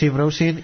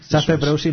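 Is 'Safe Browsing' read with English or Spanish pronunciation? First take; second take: English; Spanish. First: It is read with English pronunciation. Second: It is read with Spanish pronunciation. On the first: "leído en inglés" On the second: "leído en castellano"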